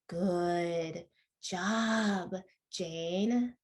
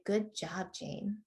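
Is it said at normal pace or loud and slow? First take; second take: loud and slow; normal pace. First: It is said louder and much slower. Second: It is said at a normal pace and volume.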